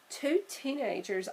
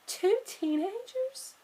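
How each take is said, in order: First: Said in the usual way. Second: High, slow, drawn-out question; startled realisation. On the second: Acted. Sister realising the pair are the ones they seek, amazed. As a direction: it suddenly clicks.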